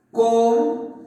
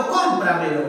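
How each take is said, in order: First: "Cómpramelo" split as cóm, pra, me, lo with long gaps; syllable by syllable. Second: Said in the usual way. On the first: Shown as a demonstration. Teacher dividing "Cómpramelo" for the class, syllable by syllable. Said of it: "mira, así sería". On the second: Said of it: "Y por ejemplo".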